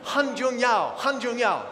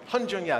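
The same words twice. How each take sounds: First: "Han Jun Yao" said slowly, each syllable clear and high; trying out "Han Jun Yao" carefully; careful name pronunciation. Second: "Han Jun Yao" repeated, settled and plainer; "Han Jun Yao" after checking; corrected name pronunciation. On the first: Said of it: "Did I say it right?". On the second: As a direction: say "Han Jun Yao" again, now sure of it. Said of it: "James, did I say it right?". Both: Shown as a demonstration.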